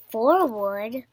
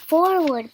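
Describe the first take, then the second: First: Questioning echo with rising end; asked. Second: Raised, loud command; shouted. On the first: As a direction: repeat it as an unsure question. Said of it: "as he asked". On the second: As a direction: call out the next move. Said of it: "Piggy shouted louder". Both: A narrator's reading.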